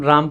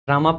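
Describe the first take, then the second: First: The name ends on the m without a vowel. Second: The name ends with an added final a vowel. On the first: This is the preferred native form. The speaker calls it right. "हम राम पढ़ना हमें ज़्यादा अच्छा लगता है" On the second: This is how it is read in English. The speaker calls it wrong. "रामा पढ़ते हैं English में"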